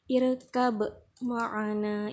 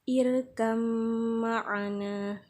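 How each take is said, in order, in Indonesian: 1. Huruf b dibaca terpisah sebelum huruf m. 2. Huruf b menyatu menjadi bunyi m yang ditasydid. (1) "ini salah" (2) "yang benar"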